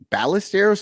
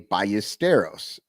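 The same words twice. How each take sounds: First: The double L is said like an l. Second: The double L is said like a y. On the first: The speaker calls it wrong. "people are pronouncing the L" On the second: The speaker calls it right. "it's Spanish, so you would say"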